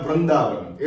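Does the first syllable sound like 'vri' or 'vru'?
vru. The first syllable is pronounced 'vru'. This is how it is said locally. "ऐसा बोला जाता है"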